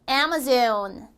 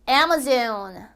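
First: The first syllable is clearly stressed. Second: The same.

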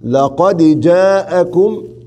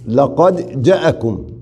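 First: The vowel after the j is lengthened. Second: The vowel after the j is short. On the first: The speaker calls it right. "تكون أتيت بالمد الطبيعي" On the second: The speaker calls it wrong. "أما ترك المد الطبيعي كيف تصير؟"

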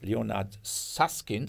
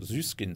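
First: The name has its original English pronunciation. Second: The name has a simplified German pronunciation.

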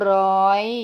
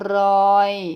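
First: The pitch is high and rises slightly. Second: The pitch stays level in the middle. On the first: "เสียงตรี" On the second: "เสียงสามัญ"

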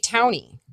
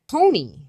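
First: The vowel sounds like ow in town. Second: The vowel sounds like a plain oh. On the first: "I've also heard people say Towny. Like town with an I on the end of it" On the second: "It shouldn't be Tony. Like an O. It's not an O"

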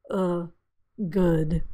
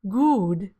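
First: The vowel is short and relaxed, with less rounding. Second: The vowel is long and tense, with rounded lips. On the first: The speaker calls it right. "but you want it to be good" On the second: The speaker calls it wrong. "Many non-native speakers will say good, oo is in blue"

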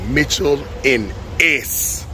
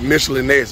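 First: The first syllable is said like 'mitch'. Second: The first syllable is said like 'mish'. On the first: This is how it was said in the song. "That boy said Mitchell and S" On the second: This is the usual way to say it. "but it didn't sound like that"

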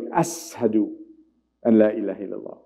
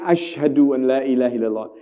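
First: The first word has an 's' sound. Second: The first word has an 'sh' sound.

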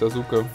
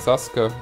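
First: The middle u is clearly pronounced. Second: The middle u is silent, like Saske. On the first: The speaker calls it wrong. "was wir so wie ein U reinschieben" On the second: The speaker calls it right. "das U häufiger in dem japanischen Namen stumm"

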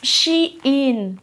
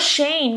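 First: The name sounds like 'she-in'. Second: The name sounds like 'Shane'. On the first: The speaker calls it right. "Se pronuncia Shein" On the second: The speaker calls it wrong. "no Shane, no se pronuncia Shane"

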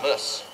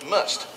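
First: The final T sound is dropped. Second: The final T sound is pronounced. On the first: The speaker calls it wrong. "not muss" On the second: The speaker calls it right. "That was must, not muss. Ain't no such thing as a silent T in my world"

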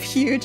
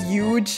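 First: It is said in a general American accent. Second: It is said in a Boston accent.

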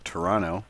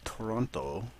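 First: The final T sound is dropped. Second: The final T sound is clearly pronounced.

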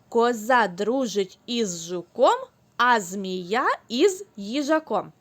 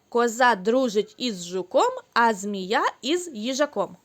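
First: It is said at a normal, steady pace. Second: It is said at a faster pace.

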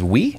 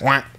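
First: It is said with an ee vowel, standard French. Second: It is said with an ah vowel, Quebec style. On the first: "like a lot of people who learn French, the word yes is oui" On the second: "if you actually go to Quebec, it's like wah"

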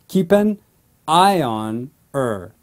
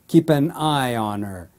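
First: The words are split into separate chunks. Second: The words are slowly linked together smoothly. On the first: "split the words in blocks" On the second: "slowly link the three words together"

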